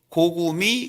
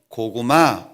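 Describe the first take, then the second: First: The last syllable ends with an 'i' vowel. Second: The last syllable ends with an 'a' vowel. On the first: The speaker calls it wrong. "아 발음을 못해요. 그러니 고구미 그랬어요" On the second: The speaker calls it right. "암호 그러면 고구마 이래야 돼요"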